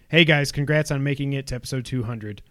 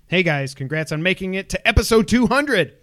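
First: It is read in a flat, plain way. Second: It is read with excited, exclaiming energy.

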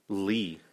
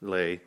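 First: The name is said with an 'ee' vowel. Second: The name is said with an 'ay' vowel. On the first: The speaker calls it right. "so it's pronounced Lee" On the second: The speaker calls it wrong. "Is that how you pronounce that?"

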